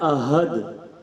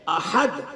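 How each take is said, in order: First: The h is a plain soft sound. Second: The h is a harsh throaty sound. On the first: It means coward. The speaker calls it wrong. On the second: It means one. The speaker calls it right.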